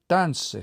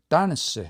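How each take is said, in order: First: The stress is on the first syllable. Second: The same.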